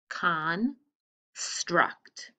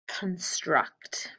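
First: The word is broken into two separate parts. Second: The word is said smoothly as one unit.

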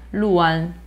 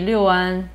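First: The first syllable is said as 'lu'. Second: The first syllable is said as 'liu'. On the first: "Luan is supposed to be the correct one" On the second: "You will see Liuan"

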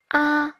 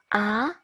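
First: The pitch stays high and level. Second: The pitch rises from mid to high. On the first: "thanh 1" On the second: "thanh 2"

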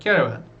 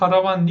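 First: The first vowel sounds like an 'e'. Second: The first vowel sounds like a clear 'a'. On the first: The speaker calls it right. "Yani E çıkıyor genel olarak" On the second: The speaker calls it wrong. "direkt karavan diye okumuyorsunuz"

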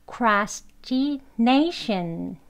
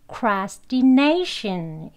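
First: The word is said slowly and deliberately. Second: The word is said at normal speed.

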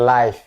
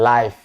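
No difference in how they are said.

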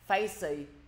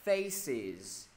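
First: The word ends without a final z sound. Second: The word ends with a clear z sound. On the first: The speaker calls it wrong. "Mọi người đọc là facey" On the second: The speaker calls it right. "thêm với thầy cái đuôi z phía cuối"

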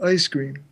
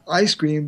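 First: The vowel in ice starts higher, raised. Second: The vowel in ice starts low and open.

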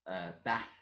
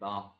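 First: The vowel is a short, flat 'a' sound. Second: The vowel is a long, open 'ah' sound. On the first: "instead of AS" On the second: "I tend to say ARS instead of AS"

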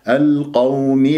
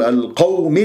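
First: The waw sound is said smoothly without stress. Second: The waw sound is pushed with extra stress. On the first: The speaker calls it right. "لا، القوم بهذه الطريقة" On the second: The speaker calls it wrong. "ما تقول القوم، هكذا البعض ينبرها"

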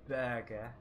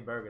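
First: It is said in a British accent. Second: It is said in an American accent.

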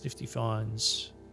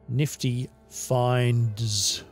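First: The word finds is said unclearly, like fines. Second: The word finds is said with clear enunciation. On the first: The speaker calls it wrong. "I need to enunciate clearer" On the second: The speaker calls it right. "I need to enunciate clearer"

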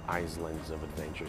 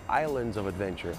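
First: An S sound is heard in the first word. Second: No S sound is heard in the first word. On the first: The speaker calls it wrong. "don't say Islands of Adventure" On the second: The speaker calls it right. "Say Islands of Adventure"

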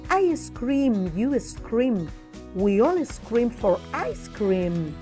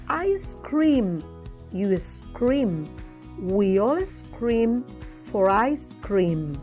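First: The sentence is said at a faster pace. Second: The sentence is said at a slow pace. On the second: "I'm going to repeat slowly"

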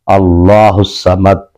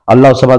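First: It is said slowly, with pauses. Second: It is said quickly, without pausing.

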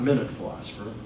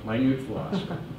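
First: The stress is on the first syllable of minute. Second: The stress is on the second syllable of minute. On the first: The speaker calls it wrong. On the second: The speaker calls it right.

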